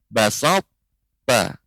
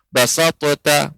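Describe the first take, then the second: First: The first t merges straight into the second. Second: The first t is released with a bounce. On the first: The speaker calls it right. "Kemudian kita turunkan untuk mengucapkan huruf ta" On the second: The speaker calls it wrong. "maka ini keliru"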